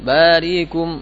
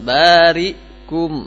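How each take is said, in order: First: The vowel after the hamza is said very quickly. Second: The vowel after the hamza is dropped completely. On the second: "Atau dibaca sukun"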